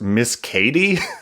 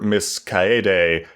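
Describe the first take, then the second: First: The name is said like the English name Katie. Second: The name is said with three syllables, ka-e-de. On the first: The speaker calls it wrong. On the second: The speaker calls it right.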